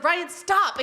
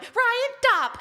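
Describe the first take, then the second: First: Higher, firm "stop"; raised-pitch exasperated order; retold scolding. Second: Very high, loud squeaky echo; squeaky mock command; mocking mimicry of wife. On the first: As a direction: tell off a husband, half in jest. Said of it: "And then I was like". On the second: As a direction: parrot the wife to tease her. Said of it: "And he went".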